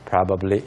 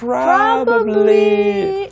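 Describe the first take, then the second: First: It is said flatly, without feeling. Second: It is said with feeling and expression.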